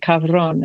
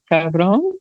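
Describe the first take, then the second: First: The word is said quickly and briskly. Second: The word is said hesitantly and unsure. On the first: "one minute I'm saying it faster" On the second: "I'm like insecure"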